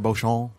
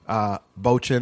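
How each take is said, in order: First: The word is said with a French accent. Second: The word is said without a French accent. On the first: The speaker calls it right. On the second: The speaker calls it wrong.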